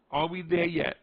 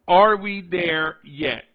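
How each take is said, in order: First: Said in the usual way. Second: Half-speed, loud opening on "are"; slow, weighty question, words drawn apart; slow-played. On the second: Shown as a demonstration. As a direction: stretch out each word of the question. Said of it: "slow play it a little bit".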